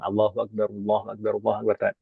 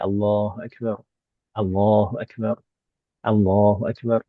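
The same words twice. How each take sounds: First: The repetitions run together without pauses. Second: A short pause separates each repetition. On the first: The speaker calls it wrong. "Tidak disambung" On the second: The speaker calls it right. "yang lebih afdal ada sedikit jedanya"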